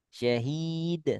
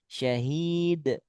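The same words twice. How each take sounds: First: The final d is released without any pressure. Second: The final d is released with light pressure. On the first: "kalau nggak neken" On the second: "Kalau neken, ... Boleh"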